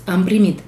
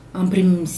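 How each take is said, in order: Both takes have the same delivery.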